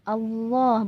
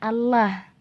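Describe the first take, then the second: First: The L is pronounced heavy and thick. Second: The L is pronounced light and thin. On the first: The speaker calls it right. "lamnya dibaca tafkhim" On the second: The speaker calls it wrong. "Kalau Allah jadinya tarqiq. Dan itu salah cara bacanya"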